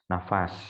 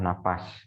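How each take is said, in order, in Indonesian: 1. Konsonan di tengah adalah bunyi f. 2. Konsonan di tengah adalah bunyi p.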